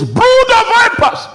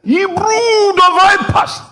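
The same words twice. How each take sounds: First: Very high, loud rebuke; preaching shout. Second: High, slow, loud fiery rebuke; preaching shout. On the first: Preacher quoting the sent man's rebuke, high shout. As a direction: cry it out as the sent prophet. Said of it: "he says". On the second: Preacher re-enacting a fiery rebuke of the crowd, high and loud. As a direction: thunder it like a prophet condemning. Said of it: "That was how he preached". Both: Retold or imitated.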